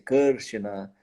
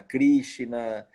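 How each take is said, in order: First: It is said with a Sanskrit pronunciation. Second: It is said with a Portuguese pronunciation. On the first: This is the original form. "essas palavras todas são diferentes, é" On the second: This is the adapted everyday form. "a gente fala"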